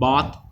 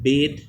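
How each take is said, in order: First: It is said with a British pronunciation. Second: It is said with an American pronunciation. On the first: "In UK it's called bath" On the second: "In US it's called bait"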